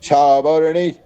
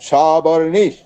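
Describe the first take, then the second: The two takes are said the same way.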